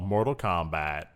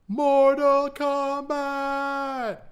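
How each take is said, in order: First: It is said flatly, in an ordinary voice. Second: It is said loudly, with a hard, punched K. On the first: The speaker calls it wrong. "I mispronounced that" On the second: The speaker calls it right. "You really got to get the K out there"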